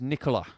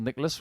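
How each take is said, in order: First: The name ends without an S sound. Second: The name ends with an S sound.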